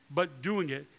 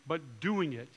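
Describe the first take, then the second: No difference in how they are said.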